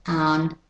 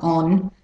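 First: "on" said like "ahn", American style; open, unrounded American vowel in "on". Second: "on" with a short rounded British-Australian O; non-American "on"; British-Australian vowel. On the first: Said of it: "have to be the American vowels". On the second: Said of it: "not on". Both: Shown as a demonstration.

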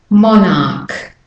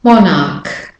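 First: "monarch" with a sounded American R; American accent. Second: Said in the usual way. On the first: Shown as a demonstration. Teacher models for American-accent learners, American R. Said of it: "doing the American". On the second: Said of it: "Again, put the R in".

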